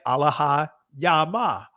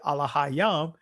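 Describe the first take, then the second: First: The word ends with an ah vowel. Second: The final ah vowel is dropped. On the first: This is a reconstructed ancient pronunciation. "notice this is saying Allah ha yama" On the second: This is how it is commonly said today. "we're dropping the last ah"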